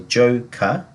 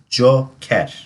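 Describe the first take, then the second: First: It is said with an English pronunciation. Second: It is said with a Turkish pronunciation. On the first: "in English we would say joker" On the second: "In Turkish we will pronounce it as joker"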